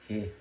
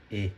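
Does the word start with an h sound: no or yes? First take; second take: yes; no. First: It starts with an h sound. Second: It starts directly with the vowel. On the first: It is read as a plain syllable. "se isso aqui fosse uma sílaba do hiragana" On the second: It is used as a particle. "quando se torna partícula, a pronúncia é E"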